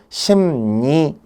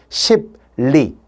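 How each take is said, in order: First: It has an m sound followed by an n. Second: It has a hard stop before an l sound. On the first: The speaker calls it right. "부드러운 발음인 심니, 미음이나 니은으로 변했잖아요" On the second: The speaker calls it wrong. "원래 표기는 뭐예요? 그런데 발음이 불편해"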